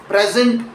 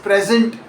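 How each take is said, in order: The two takes are said the same way.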